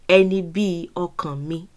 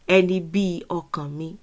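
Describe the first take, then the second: Both takes have the same delivery.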